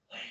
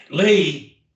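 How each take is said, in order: First: Whisper. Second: Said in the usual way. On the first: Shown as a demonstration. Teacher replays the hidden first try, whispering. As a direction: whisper too soft to be noticed. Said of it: "I whispered Lee". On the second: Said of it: "And then I said Lee".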